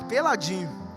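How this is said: It is said in a sad, mournful tone.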